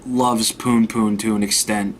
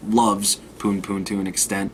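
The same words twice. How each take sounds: First: Said in the usual way. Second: "loves" set apart by a pause, said lower and softer; low, soft aside doubting the word "loves"; qualified "loves". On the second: Real, not acted. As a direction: drop the voice on "loves", as if in quotation marks.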